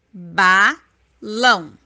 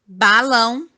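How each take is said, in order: First: Balão split slowly as "ba... lão"; slow, low ba – lão; syllable by syllable. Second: Said in the usual way. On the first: Shown as a demonstration. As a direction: say "balão" in two separate beats, pause between. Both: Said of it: "duas sílabas".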